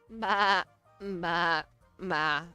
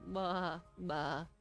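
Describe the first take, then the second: First: The bleat sounds neutral and ordinary. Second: The bleat sounds sad and downcast.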